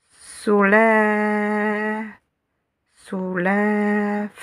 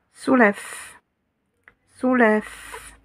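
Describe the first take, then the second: First: Soulève with the second vowel held very long; soulève, sounded out slowly on a sustained "è". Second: Said in the usual way. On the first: Shown as a demonstration. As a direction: stretch out the "è" in soulève. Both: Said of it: "C'est pour la voyelle longue".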